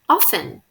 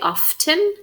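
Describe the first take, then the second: First: The T sound is silent. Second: The T sound is pronounced. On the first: This is how many Americans say it. "Notice that I said often, even though there's a T here" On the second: This is how people from England and other countries say it. "other people say often, and that's okay"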